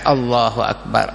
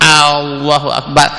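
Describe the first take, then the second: First: The opening vowel is short, without lengthening. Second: The opening vowel is drawn out long. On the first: God is the greatest. The speaker calls it right. "macam biasa" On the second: It turns into asking whether there is a God. The speaker calls it wrong. "adakah Tuhan?"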